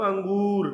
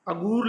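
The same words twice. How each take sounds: First: अंगूर with a nasal ng before गू; अनुस्वार सहित उच्चारण. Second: अगूर with a plain oral अ, no nasal before गू; बिना अनुस्वार का उच्चारण. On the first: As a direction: sound the anusvara in अंगूर. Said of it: "अनुस्वार तथा अनुनासिक का प्रयोग". (अंगूर, अं में नासिक्य ध्वनि के साथ) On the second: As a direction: say अगूर as misspelt, without the anusvara. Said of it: "अगूर मतलब अंगूर". (अगूर, बिना नासिक्य ध्वनि के) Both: Shown as a demonstration.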